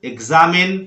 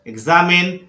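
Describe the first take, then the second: No difference in how they are said.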